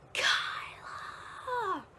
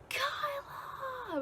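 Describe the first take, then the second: First: High, far-off mock yell of a name; faint echo of a shouted name; distant echoing call. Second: High, far-off yelled name, lightly voiced; imitating aunt calling close by; aunt's call. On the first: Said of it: "all I can hear is her voice through that phone in an echo". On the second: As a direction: call out the name from nearby woods. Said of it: "but, like, in my aunt's voice".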